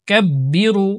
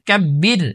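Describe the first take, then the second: First: The word ends with a short u vowel. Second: The word ends on the r consonant. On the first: The reader continues without stopping. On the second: The reader stops at this word.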